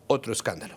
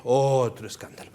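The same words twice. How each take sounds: First: Said in the usual way. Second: Long, sardonic "otro", then fall away. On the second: Real, not acted. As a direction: stretch the first vowel of "otro". Repeats it with drawn-out first word.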